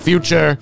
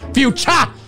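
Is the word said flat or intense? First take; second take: flat; intense. First: The word is said plainly, without intensity. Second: The word is said with dramatic intensity. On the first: The speaker calls it wrong. "not future" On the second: The speaker calls it right. "Sounds more intense and like you know what the fuck you're talking about"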